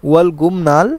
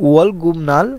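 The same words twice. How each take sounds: Both takes have the same delivery.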